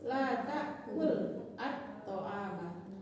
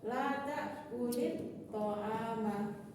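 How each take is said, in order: First: The verb ends plainly, separated from the next word. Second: The verb links into the next word with -i. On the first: "kalau kita baca putus" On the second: "kalau kita baca sambung"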